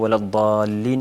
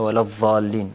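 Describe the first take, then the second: First: The emphatic consonant is said as a d-like sound. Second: The emphatic consonant is said as a z-like sound. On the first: The speaker calls it right. "veleddallin yerine" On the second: The speaker calls it wrong. "dat harfini va diye çıkarmak"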